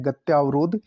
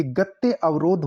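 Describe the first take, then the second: First: गत्यावरोध joined with a long yaa; mispronounced compound. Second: Said in the usual way. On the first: Shown as a demonstration. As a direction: say गत्यावरोध as "gatyaa-varodh". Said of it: "नहीं होता". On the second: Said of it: "ये गत्य अवरोध होता है".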